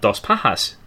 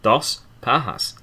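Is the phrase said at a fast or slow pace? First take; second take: fast; slow. First: It is said at a normal pace. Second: It is said slowly and deliberately.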